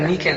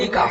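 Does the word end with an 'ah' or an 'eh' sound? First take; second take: eh; ah. First: The word ends in an 'eh' vowel. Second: The word ends in an 'ah' sound. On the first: This is the everyday Bengali form of the word. The speaker calls it wrong. "নিকে মানে actually ওটা নিকে না" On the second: This is the original form of the word. The speaker calls it right. "Actual শব্দটা হলো নিকাহ"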